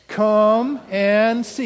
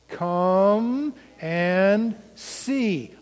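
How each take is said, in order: First: The phrase is said at a faster pace. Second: The phrase is said at the slowest pace. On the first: "Again, a little faster" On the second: "Say it with me"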